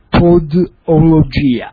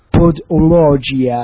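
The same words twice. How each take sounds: First: It is said with a plain Italian accent. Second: It is said with an English-style accent.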